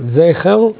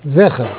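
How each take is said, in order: First: The first vowel is a long 'ei' sound. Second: The first vowel is a short 'e' sound. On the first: The speaker calls it wrong. "אם צריך לנקד עם צעירה" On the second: The speaker calls it right. "או שצריך לנקד עם סגול"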